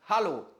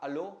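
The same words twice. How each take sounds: First: The word starts with an audible breathy H sound. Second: The word starts with a vowel, no H sound. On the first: The speaker calls it right. "on prononce le H" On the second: The speaker calls it wrong. "C'est pas hallo"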